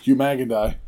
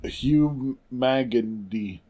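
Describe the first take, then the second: First: "Magandy" ending in "die"; corrected ending. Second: "Magandy" ending in "dee"; mispronounced ending. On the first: Co-host following the correction, "Magandy" ending in "die". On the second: Co-host trying the slang word, "Magandy" ending in "dee". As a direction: slowly sound out "Magandy" with a final "dee". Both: Shown as a demonstration.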